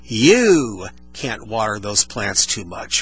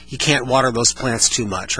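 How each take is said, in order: First: "You can't water those plants too much" slow, each word punched; stress every word. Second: Said in the usual way. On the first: Shown as a demonstration. Host demoing verbal emphasis for a listener, every word stressed. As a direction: lean on every single word one by one. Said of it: "when I emphasize each word". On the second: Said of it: "So take the sentence".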